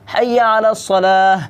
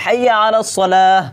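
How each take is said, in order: No difference in how they are said.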